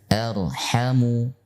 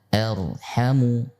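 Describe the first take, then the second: No difference in how they are said.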